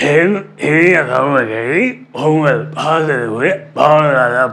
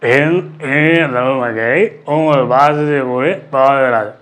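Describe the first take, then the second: First: The imitated voice with a second voice blended in. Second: A single imitated voice with no second voice blended. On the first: "இப்போ மொட்டை ராஜேந்திரன் சேர்றார் எப்படின்னு பாருங்கள்" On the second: "இப்படி பேச சொல்லியிருந்தேன் இல்லையா"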